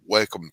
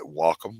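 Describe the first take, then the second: First: "Wacom" said as "WEL-kum"; "Wacom" with an L-like first syllable, WEL-kum; wrong pronunciation. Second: "Wacom" said as "WAH-kum"; "Wacom" carefully fixed, open WAH then kum; corrected pronunciation. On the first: Real, not acted. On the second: Shown as a demonstration. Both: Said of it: "excuse me, let me say it right".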